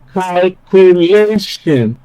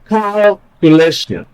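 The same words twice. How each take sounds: First: The stress is on the second-to-last syllable. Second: The stress is not on the second-to-last syllable. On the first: The speaker calls it right. "Sounds natural" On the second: The speaker calls it wrong. "it doesn't sound natural"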